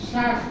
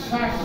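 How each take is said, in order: The two takes are said the same way.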